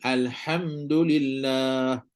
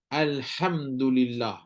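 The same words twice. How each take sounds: First: Alhamdulillah stretched slowly with a clear breathy ha; correct ha. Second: Alhamdulillah read slowly with a clear breathy ha; correct ha. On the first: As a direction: read Alhamdulillah very slowly and sound the ha cleanly. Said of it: "kena bunyi betul-betul". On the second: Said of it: "kena baca betul-betul". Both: Shown as a demonstration. Teacher demonstrates the correct reading.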